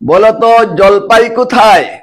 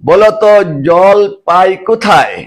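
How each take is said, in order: First: Jolpai is said as one unbroken word. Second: Jolpai is broken with a break after jol. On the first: Tell me, where is the olive? "একটি বাক্য" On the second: Tell me, where do I get water? "জলপাই শব্দকে ভেঙ্গে যদি জল এবং পাই দুটি আলাদা শব্দে পরিণত করে বাক্যটি পাঠ করি"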